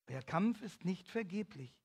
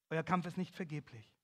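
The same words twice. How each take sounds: First: "Euer Kampf ist nicht vergeblich" repeated slower, with weight on "Kampf"; slow down and lean on "Kampf"; slower repeat for emphasis, "Kampf" stressed; emphatic repeat. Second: Said in the usual way. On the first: Shown as a demonstration.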